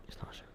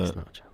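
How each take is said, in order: First: Barely audible repeat; near whisper. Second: Said in the usual way. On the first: Shown as a demonstration. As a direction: breathe it almost silently.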